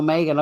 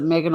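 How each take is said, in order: First: Megan with a long first vowel, "MAY-gun"; long-a pronunciation. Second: Megan with a short e, "MEG-un"; short-e pronunciation. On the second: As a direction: say Megan to rhyme its first syllable with "leg". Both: Shown as a demonstration. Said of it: "can't remember if she pronounces it".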